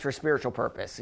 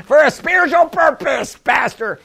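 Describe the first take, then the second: First: Said in the usual way. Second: High, put-on congregant voice; mock objecting congregant. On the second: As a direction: imitate a protesting church member, pitched up. Mimics congregant objecting to the pastor.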